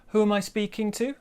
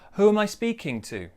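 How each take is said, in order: First: The voice rises at the end. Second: The voice falls at the end. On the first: "We could go up too" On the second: "we probably will go down at the end"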